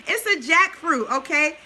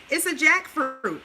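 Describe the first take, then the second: First: Amused correction. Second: Said in the usual way. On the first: Real, not acted. Correcting her chicken salad slip for viewers, amused and louder. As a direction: set the record straight with a giggle.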